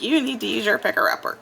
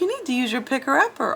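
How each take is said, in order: First: It sounds harsh and bossy, not cheerful. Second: It sounds happy and positive, not harsh. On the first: The speaker calls it wrong. "She didn't say it like that, though" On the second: The speaker calls it right. "All happy and positive because she is my bestie"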